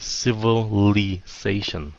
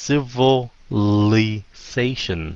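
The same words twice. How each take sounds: First: The word is said quickly and compressed. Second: The word is said slowly and carefully. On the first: "mà nếu nó nhanh thì" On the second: "nói chậm nha"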